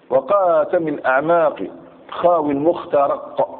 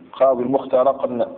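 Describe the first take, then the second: First: "خاوي المخترق" recited slowly, stopping on a bare qaf; measured verse recital, "المخترق" closed with a vowelless q; rhyme ending in sukun. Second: "المخترق" ending in an added n, al-mukhtaraqn; rhyme with tanween. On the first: Teacher reciting verse to show its rhyme, "المخترق" ending in sukun. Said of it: "بالسكون". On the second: Teacher showing the poets' tanween, "المخترق" said with a final n. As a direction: sound a nunation after the final qaf of "المخترق". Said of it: "مع ذلك جاءوا بتنوين". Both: Shown as a demonstration.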